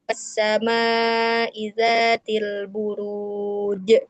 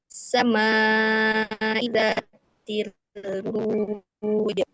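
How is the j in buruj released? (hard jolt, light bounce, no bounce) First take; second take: hard jolt; light bounce. First: The final j ends with a hard jolt. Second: The final j has a light bounce. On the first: The speaker calls it wrong. "ada j gitu teh di hentak gitu ya" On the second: The speaker calls it right. "memantulnya huruf yang sukunnya itu di makhrajnya"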